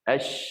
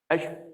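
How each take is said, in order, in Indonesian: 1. Bunyi sh di akhir mendesis agak lama. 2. Bunyi sh di akhir berhenti hampir seketika. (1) "syh tu dia jauh sikit pergi" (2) "Tak mau kita sebut ash. ... Itu salah sebenarnya"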